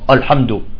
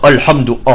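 First: The opening hamza is heavy and emphatic. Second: The same.

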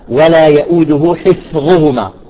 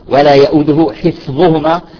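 No difference in how they are said.

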